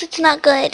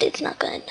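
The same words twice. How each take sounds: First: Said in the usual way. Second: Breathy whispered repeat. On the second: Real, not acted. Telling viewers she is ill, whispered.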